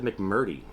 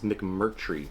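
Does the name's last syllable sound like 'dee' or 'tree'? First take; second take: dee; tree. First: The name ends with a 'dee' sound. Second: The name ends with a 'tree' sound. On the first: The speaker calls it wrong. "I did say it wrong before. I said McMurdy" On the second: The speaker calls it right. "It's McMurtry"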